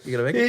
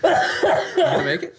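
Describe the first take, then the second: First: Said in the usual way. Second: Squeaky laughing question. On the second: Real, not acted. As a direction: ask it while cracking up. Teasing friend through laughter.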